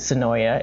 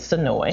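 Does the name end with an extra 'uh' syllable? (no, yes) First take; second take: yes; no. First: The name ends with an added 'uh' syllable. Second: The name ends on the 'oy' sound. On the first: The speaker calls it wrong. "which is not Sonoya for those folks who pronounce it Sonoya" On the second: The speaker calls it right. "It is Sonoy"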